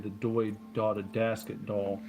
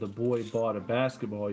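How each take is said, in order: First: The b sounds are replaced with d sounds. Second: The b sounds are pronounced as normal b. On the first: "you replace it with a D sound" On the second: "instead of the boy bought a basketball"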